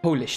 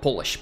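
First: The first vowel is long, like 'oh'. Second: The first vowel is short, like 'hot'. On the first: It names the language of Poland. The speaker calls it right. "Polish, not Polish" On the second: It names making something shiny. The speaker calls it wrong. "Polish is something else"

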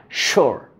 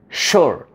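No difference in how they are said.

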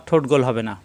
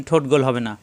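No difference in how they are said.

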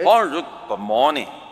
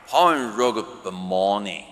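First: The phrase is said quickly and run together. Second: The phrase is said more slowly and separated.

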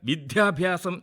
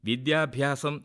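First: The consonants are given unnecessary extra force. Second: The word is said in its full, plain form. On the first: The speaker calls it wrong. "അനാവശ്യമായി ബലപ്പെടുത്താറുണ്ട്" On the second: The speaker calls it right. "വിദ്യ plus അഭ്യാസം"

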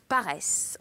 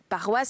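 First: It has an 'e' vowel like 'paresse'. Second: It has the standard 'wa' vowel sound. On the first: This is the local island form. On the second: This is the standard French form.

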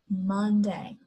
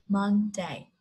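No difference in how they are said.

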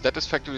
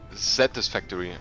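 First: The first syllable sounds like English 'satis'. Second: The first syllable sounds like German 'Satellit'. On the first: The speaker calls it wrong. "Das Ding heißt ja nicht Satisfactory" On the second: The speaker calls it right. "sondern Satisfactory. Also S-A. ... Soll wohl auf Satellit"

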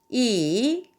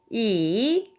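First: It is said with the third tone. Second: The same.

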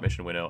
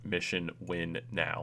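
First: The last part is said as one word. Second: The last part is said as two words. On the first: The speaker calls it wrong. "not Mission Winnow" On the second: The speaker calls it right. "which I always call it Mission Win Now"

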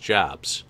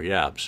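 First: The name begins with an English 'j' sound. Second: The name begins with a German 'y' sound.

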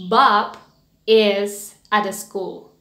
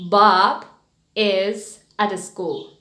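Both takes have the same delivery.

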